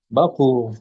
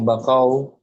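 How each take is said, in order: First: The word ends with a long 'oo' sound. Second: The word ends with an 'au' sound. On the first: The speaker calls it right. "huruf qafnya didhammahkan" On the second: The speaker calls it wrong. "Bukan bakau"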